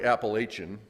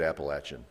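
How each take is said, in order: First: Appalachian with long a, as "lay"; Northern pronunciation. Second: Appalachian said "appa-LATCH-un", short a; Southern pronunciation. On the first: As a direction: say Appalachian as "appa-LAY-shun". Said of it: "People in the north say". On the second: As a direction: give Appalachian a "latch" in the middle. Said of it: "but we say it". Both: Shown as a demonstration.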